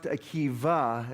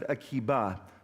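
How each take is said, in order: First: The consonant before the last vowel is V. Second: The consonant before the last vowel is B. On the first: This is the form used in rabbinic study. "in rabbinics, it's actually pronounced Akiva, as though there's a Victor" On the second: This is the form the congregation uses. "but we pronounce it Akiba"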